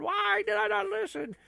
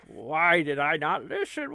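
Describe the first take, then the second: First: Much higher, wailing take of the same line; high mock despair. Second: Said in the usual way. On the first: Shown as a demonstration. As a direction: cry it out to the sky in fake anguish.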